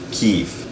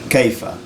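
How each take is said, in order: First: It has a single long ee vowel. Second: It has a diphthong and a final a. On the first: This is the everyday spoken form. "it's going to sound like kif" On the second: This is the formal standard form. "the word how in Fusha is kaifa"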